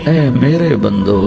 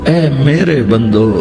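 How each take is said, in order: Both takes have the same delivery.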